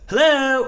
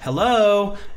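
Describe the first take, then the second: First: The stress is on the first syllable. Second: The stress is on the second syllable. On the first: This is how someone else says it. "but his is on the H" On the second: This is the speaker's own usual way. "the emphasis is on the O"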